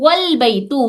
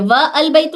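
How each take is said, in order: First: 'Wa' runs straight into 'l' without a break. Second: A glottal stop separates 'wa' from 'al'. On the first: The speaker calls it right. "वाव को सीधा लाम से मिलाएंगे" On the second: The speaker calls it wrong. "व अल बैतु नहीं"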